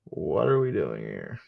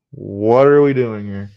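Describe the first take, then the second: First: Said in the usual way. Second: Loud, slow, exasperated. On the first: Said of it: "repeated line, second louder". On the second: Real, not acted. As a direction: throw the question out in disbelief. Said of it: "repeated louder, exasperated".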